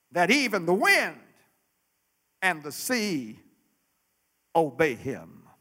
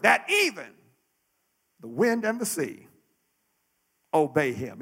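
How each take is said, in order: First: Said in the usual way. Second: "even" lifted and leaned on, the rest falling away; emphasis on even. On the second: Shown as a demonstration. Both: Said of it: "the emphasis must be on the words".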